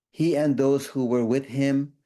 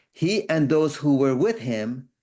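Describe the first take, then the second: No difference in how they are said.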